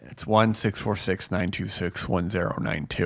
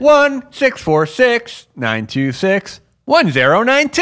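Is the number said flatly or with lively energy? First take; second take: flatly; lively. First: It is said in a plain, flat way. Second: It is said with lively, showy energy.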